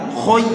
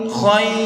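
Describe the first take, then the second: First: The vowel is a dark rounded 'oi'. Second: The vowel is a bright open 'ai'. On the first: The speaker calls it right. "harusnya khoi" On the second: The speaker calls it wrong. "sebagian membaca khai khai khai khai"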